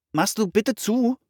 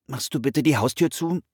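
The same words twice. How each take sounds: First: Much higher, rising plea; repeated request. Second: Said in the usual way. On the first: A narrator's reading. Brother asks his distracted sister to shut the door, insistent repeated request. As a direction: ask a second time, pitched right up. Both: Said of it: "bat Philipp nochmal".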